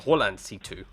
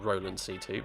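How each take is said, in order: First: The name is pronounced the German way. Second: The name is pronounced the English way. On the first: "In Germany, it's just it's pronounced Roland" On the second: "rather than"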